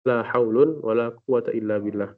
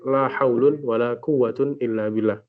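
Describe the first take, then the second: First: First noun ends in un, second in a. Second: Both nouns end in un. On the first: "raf'ul awal wa fathus tsani" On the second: "kalimat setelah la itu dirafa'kan"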